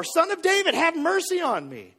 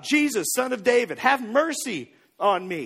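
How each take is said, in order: First: High, urgent retold cry; imitated insistent shout. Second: A restrained imitation of a man yelling; mild retold yell. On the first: Blind man shouts over those hushing him, high insistent shout. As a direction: call out all the more, pitched well up. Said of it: "he shouted all the more". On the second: Blind beggar calls out to passing Jesus, mild yell. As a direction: call out for help, lightly raised voice. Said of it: "he's yelling for Jesus".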